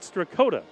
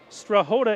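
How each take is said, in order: First: The middle consonant is a k sound. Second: The middle consonant is an h sound. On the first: The speaker calls it wrong. "not Strakota" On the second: The speaker calls it right. "it's Strahota"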